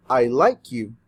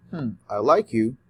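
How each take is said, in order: First: Said in the usual way. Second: Lower, hesitant musing take; doubtful hmm. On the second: Shown as a demonstration. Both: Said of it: "it's very different say".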